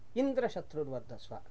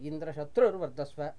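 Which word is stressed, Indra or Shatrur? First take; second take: Indra; Shatrur. First: The stress falls on the word Indra. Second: The stress falls on the word Shatrur. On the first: Indra, the enemy, will grow. "that means Indra, the enemy, will have to grow" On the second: The enemy of Indra will grow. "where the emphasis has shifted. So it is on the enemy of Indra"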